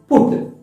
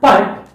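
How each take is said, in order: First: The vowel sounds like the one in foot. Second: The vowel sounds like the one in cut. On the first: The speaker calls it right. "it is put" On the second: The speaker calls it wrong. "not put"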